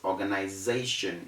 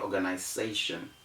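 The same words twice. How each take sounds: First: The consonant is sounded as a z. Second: The consonant is sounded as an s. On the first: The speaker calls it right. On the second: The speaker calls it wrong.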